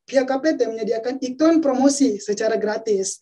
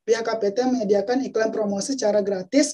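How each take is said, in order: First: The phrase 'iklan promosi secara gratis' is emphasized. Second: The phrase is delivered flatly without extra emphasis. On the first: The speaker calls it right. "Akan berbeda" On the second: The speaker calls it wrong. "ketika kita menyampaikan secara datar"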